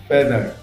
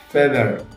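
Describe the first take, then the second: The two takes are said the same way.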